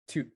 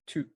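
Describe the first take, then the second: Both takes have the same delivery.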